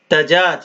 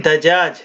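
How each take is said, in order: Both takes have the same delivery.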